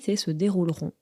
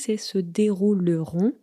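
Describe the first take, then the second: First: The middle vowel is dropped, giving fewer syllables. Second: Every syllable is sounded, including the middle vowel. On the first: This is how people actually say the word. The speaker calls it right. "mais quand on le dit" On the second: This is how the word looks in writing. The speaker calls it wrong. "Quand on le voit écrit"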